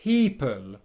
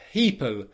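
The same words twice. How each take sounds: First: The word is said very slowly. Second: The word is said at faster speed. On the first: "if I slow it right down" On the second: "speed that up"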